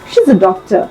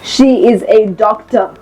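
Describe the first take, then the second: First: The words are merged smoothly together. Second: Each word is said separately and emphasized.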